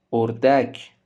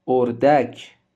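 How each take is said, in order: Both takes have the same delivery.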